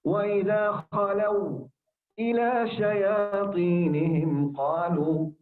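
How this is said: A brief silent stop comes before إلى. "هذا سكت"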